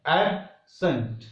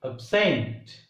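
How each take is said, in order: First: "absent" as AB-sent, slow, strong first syllable; stress on first syllable. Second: "absent" as ab-SENT, weak first syllable; stress on second syllable. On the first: Teacher contrasts the two words, absent stressed on AB. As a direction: punch AB in "absent", pause, weaken sent. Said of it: "Here ab becomes strong". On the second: Teacher repeats the verb absent with stress on SENT. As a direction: lean on SENT in "absent", barely touch ab. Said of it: "first syllable becomes weak and second becomes". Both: Shown as a demonstration.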